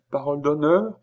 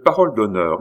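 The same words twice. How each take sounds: First: PAROLE D'HONNEUR lifted high at the end as a question. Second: PAROLE leaned on louder, D'HONNEUR settling as a statement; affirming. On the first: Woman asks the stranger for his word, questioning. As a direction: ask "Parole d'honneur" with a rising finish. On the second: Stranger gives his word to the woman, affirming. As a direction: confirm "parole d'honneur" firmly, with no question in it. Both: A narrator's reading.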